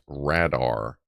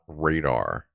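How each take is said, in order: First: The first syllable sounds like 'rad'. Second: The first syllable sounds like 'ray'. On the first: This is the claimed correct pronunciation. The speaker calls it right. "is pronounced radar, Rad as in that" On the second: This is the usual pronunciation. The speaker calls it wrong. "not radar"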